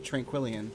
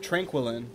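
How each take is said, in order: First: The 'i' sound near the end is sounded. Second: The 'i' sound near the end is dropped. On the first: The speaker calls it right. "but I guess it would be Tranquillion" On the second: The speaker calls it wrong. "I always pronounced it Tranquillin, because I just apparently ignore the I"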